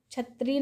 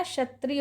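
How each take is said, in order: First: क्षत्रिय said as "chhatri"; wrong pronunciation. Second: क्षत्रिय said as "shatri"; correct pronunciation. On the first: Teacher showing students the error, क्षत्रिय as "chhatri". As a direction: open क्षत्रिय on chh. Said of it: "नहीं होता है". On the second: Teacher giving students the right form, क्षत्रिय as "shatri". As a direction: open क्षत्रिय on a soft sh. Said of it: "होता है". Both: Shown as a demonstration.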